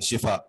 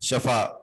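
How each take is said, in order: First: The first vowel is an 'i' sound. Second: The first vowel is an 'a' sound. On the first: It means healing. The speaker calls it right. "शिफा पढ़ना चाहिए।" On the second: It means the edge of a pit. The speaker calls it wrong. "शफा नहीं पढ़ते"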